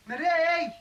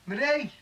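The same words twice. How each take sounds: First: Drawn-out, very high yell for someone; insistent calling. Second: High-pitched call to another room. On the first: Man calls Marie who hasn't answered, insistent yell. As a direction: call harder, pitch right up, stretching the name. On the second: Man calls Marie from another room, calling out. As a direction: call out the name, pitched well up. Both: Acted.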